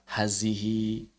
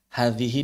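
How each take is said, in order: First: The middle consonant is a 'z' sound. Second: The middle consonant is a voiced 'th' sound. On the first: The speaker calls it wrong. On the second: The speaker calls it right.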